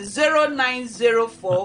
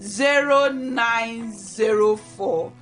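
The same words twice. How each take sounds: First: The number is read quickly. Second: The number is read slowly.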